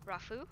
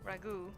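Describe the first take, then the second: First: The middle consonant is an f sound. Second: The middle consonant is a plain g sound. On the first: "a G H can also be an F sound, like in rough" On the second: "if it was Spanish, you wouldn't say the H"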